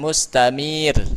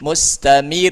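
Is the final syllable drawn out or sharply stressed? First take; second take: drawn out; sharply stressed. First: The final syllable is drawn out long. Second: The final syllable is hit sharply and raised. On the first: The speaker calls it wrong. "Bukan mustamir" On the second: The speaker calls it right. "tapi mustamir. Mustamir dihentakan"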